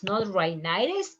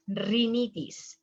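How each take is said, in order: First: Rhinitis said the English way, "rai-NAI-tis"; wrong English pronunciation. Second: Rhinitis said the Spanish way, "ri-NEE-tis"; Spanish pronunciation. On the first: Teacher shows the wrong way: rhinitis as rai-NAI-tis. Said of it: "it's rhinitis". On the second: Teacher shows the right way: rhinitis as ri-NEE-tis. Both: Shown as a demonstration.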